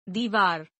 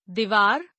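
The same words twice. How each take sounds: First: Said in the usual way. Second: दीवार with short first i, "divaar"; mispronounced. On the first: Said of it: "शुद्ध". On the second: Shown as a demonstration. Teacher showing an i error, mispronounced with short first i. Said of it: "अशुद्ध".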